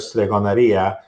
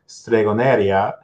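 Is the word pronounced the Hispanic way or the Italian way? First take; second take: Italian; Hispanic. First: It is pronounced the native Italian way. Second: It is pronounced the Hispanic way. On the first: The speaker calls it right. "instead of" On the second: The speaker calls it wrong. "when they hear me say on those videos"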